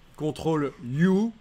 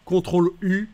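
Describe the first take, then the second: First: The letter U sounds like English 'you'. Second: The letter U has the French vowel sound.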